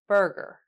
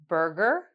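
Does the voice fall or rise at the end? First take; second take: fall; rise. First: The pitch falls at the end. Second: The pitch rises at the end.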